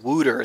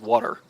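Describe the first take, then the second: First: The first vowel sounds like the vowel in wood. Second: The first vowel sounds like a standard open vowel. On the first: "I'm from like Philadelphia, so I should be saying wooter" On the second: "But I say water"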